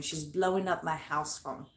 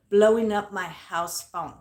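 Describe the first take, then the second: First: Said in the usual way. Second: "Blowing up my house phone" louder, slow and drawn out; emphatic repeat. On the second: Real, not acted.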